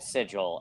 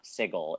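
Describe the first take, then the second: First: The g is pronounced as a soft j sound. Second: The g is pronounced as a hard g sound. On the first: The speaker calls it wrong. "for calling it sigil" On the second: The speaker calls it right. "it's not a J sound"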